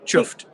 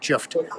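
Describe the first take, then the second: First: It is said in a normal voice. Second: It is deeper, with a stronger f.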